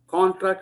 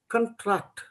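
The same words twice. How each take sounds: First: The first vowel is long and full. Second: The first vowel is short and reduced. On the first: The speaker calls it wrong. "you use the longer vowel sound" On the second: The speaker calls it right. "If you reduce the vowel sound"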